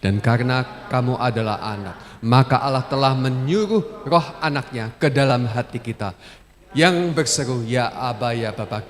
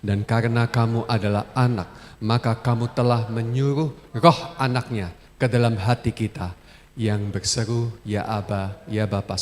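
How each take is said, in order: First: It is read firmly, strongly and loudly. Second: It is read at ordinary, moderate loudness.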